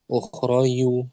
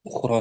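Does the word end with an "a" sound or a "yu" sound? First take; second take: yu; a. First: The word ends with an added "yu" sound. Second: The word ends with a plain "a" sound. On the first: The speaker calls it wrong. "nggak boleh dibaca akh ukhrayu, nanti jadi ya dia" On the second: The speaker calls it right. "Ukhra saja"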